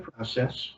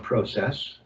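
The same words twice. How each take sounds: First: The word is said with an American pronunciation. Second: The word is said with a Canadian pronunciation.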